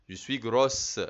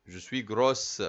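Both takes have the same delivery.

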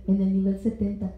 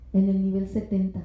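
No difference in how they are said.

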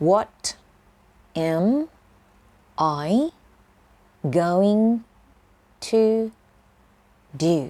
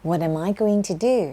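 First: Word by word. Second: Whole phrase, flowing. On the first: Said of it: "ฉันจะทำยังไงดีอ่ะ". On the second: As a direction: say What am I going to do? as one smooth phrase. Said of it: "จำทั้งประโยคแบบนี้ไปใช้เลยก็ได้ค่ะ". (พูดต่อกันเป็นประโยคเดียว) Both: Shown as a demonstration.

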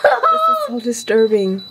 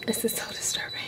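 First: Laughing disgust. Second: This is so disturbing whispered. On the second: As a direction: breathe the words in disgust. Whispered repeat. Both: Real, not acted.

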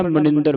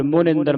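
First: Said in the usual way. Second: ਮੁਨਿੰਦਰ with a clear u in the first syllable; ਮੁਨਿੰਦਰ, mu not ma; correct with u. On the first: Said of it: "ਮਨਿੰਦਰ ਨਹੀਂ ਪੜ੍ਹਨਾ". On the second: Shown as a demonstration. Teacher giving students the right reading of ਮੁਨਿੰਦਰ. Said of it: "ਮੰਮੇ ਔਂਕੜ ਲਾ ਕੇ".

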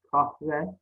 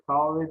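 First: Said in the usual way. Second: "Kahve" without the h, kave; dropped h in "Kahve"; misspelt form. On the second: Shown as a demonstration. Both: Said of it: "Kahve değil".

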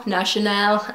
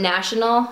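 First: "National" with a drawn final "-nal"; affected pronunciation. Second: Said in the usual way. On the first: Shown as a demonstration. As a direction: say "National" as a fancy foreign name, ending "-al" stressed. Self-corrects brand name, then laughs.

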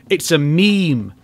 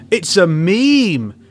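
First: Slow, flat-voiced statement of fact; slow deadpan. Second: Slower and louder, pressing the point home; louder, insistent. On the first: Telling Homelander his milk pose is a meme, slowly. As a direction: let it land slowly. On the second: Telling Homelander his milk pose is a meme, louder insistence. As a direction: drive it in, slowly and loud. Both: Shown as a demonstration. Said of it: "repeats the line louder".

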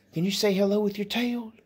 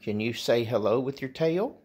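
First: Much higher, sing-song pet talk. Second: Said in the usual way. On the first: Real, not acted. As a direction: coax the dog in a high cooing voice. Asking the dog again.

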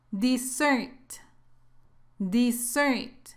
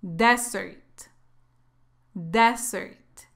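First: "Dessert" as di-ZERT, stress on the second syllable; short first vowel, strong ending in "Dessert"; careful teacher's model of "Dessert", stressed at the end; double-S pronunciation. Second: "Desert" as DEZ-ert, stress on the first syllable; strong open e at the start of "Desert"; careful teacher's model of "Desert", stressed up front; single-S pronunciation. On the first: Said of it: "Cuando lleva dos letras S, la pronunciación es así". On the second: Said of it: "si solo lleva una S, se pronuncia así". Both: Shown as a demonstration.

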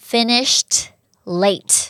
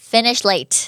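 First: FINISHED with final t, pause, LATE; separated words. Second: "Finish late" linked, no t before late; dropped ending. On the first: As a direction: say "Finished" and "late" fully and apart. (แยกคำ Finished กับ late ออกเสียง t ท้ายคำ) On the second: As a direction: drop the -ed of finished and run into late. (ลบเสียง t ท้าย Finish แล้วเชื่อม late) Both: Shown as a demonstration. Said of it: "ลบเสียง E D หรือว่าเสียง T".

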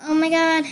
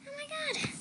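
First: Said in the usual way. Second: Squeal. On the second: Real, not acted.

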